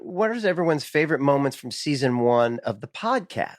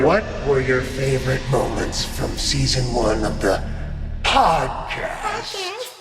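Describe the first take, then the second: First: It is said in a plain, normal way. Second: It is said in a dramatic, theatrical way.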